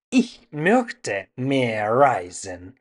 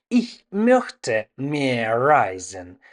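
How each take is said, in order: Both takes have the same delivery.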